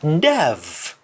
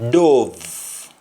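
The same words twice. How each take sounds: First: "Dove" said dav, with "ah"; English-style "Dove", open "ah" vowel; English pronunciation. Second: "dove" said dohv, with O; Jamaican pronunciation. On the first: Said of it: "in English". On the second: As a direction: say "dove" the Patois way, as dov. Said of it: "pronounced in Jamaican". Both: Shown as a demonstration.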